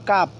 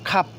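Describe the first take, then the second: First: The first k sound has no puff of air. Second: The first k sound has a puff of air. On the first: The speaker calls it wrong. "আগে বলতাম" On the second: The speaker calls it right. "এখন বলবো আমরা ক্ষয় আকার প"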